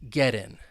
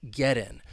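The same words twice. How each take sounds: Both takes have the same delivery.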